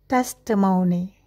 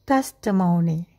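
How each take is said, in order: Both takes have the same delivery.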